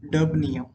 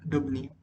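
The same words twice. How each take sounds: First: "डबनियम" announced loudly, falling at the end; emphatic naming. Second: Said in the usual way. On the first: Shown as a demonstration. Teacher revealing the element's real name, "डबनियम" loud and emphatic. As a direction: hit "डबनियम" hard as the key answer. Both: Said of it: "हम इसे pronounce कर सकते हैं डबनियम".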